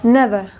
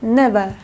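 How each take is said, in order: The two takes are said the same way.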